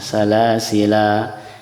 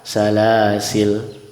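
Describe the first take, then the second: First: The word ends with a long final vowel. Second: The word ends on the consonant l. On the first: "dengan uh, menyebutkan alifnya" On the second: "Atau yang kedua"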